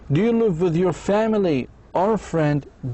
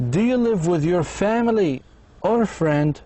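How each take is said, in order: First: The voice rises on family, then falls. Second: The same.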